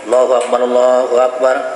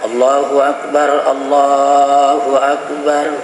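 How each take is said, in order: First: The phrase is said quickly, run together. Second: The phrase is said slowly, word by word. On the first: The speaker calls it right. "makanya dilajukan" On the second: The speaker calls it wrong. "tidak disunnahkan yatamahal ... itu tidak sunnah"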